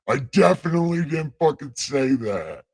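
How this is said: It is said in a put-on God voice.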